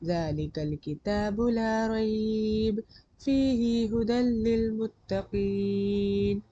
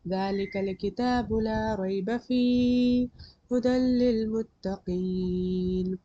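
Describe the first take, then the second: First: The pause comes after the word rayb. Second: The pause comes after the word fihi.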